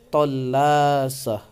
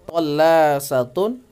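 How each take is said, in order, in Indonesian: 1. Kata ini berakhir dengan bunyi h. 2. Kata ini berakhir dengan akhiran -tun yang lengkap. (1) "ketika diwaqafkan tallasah" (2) "wasol ya"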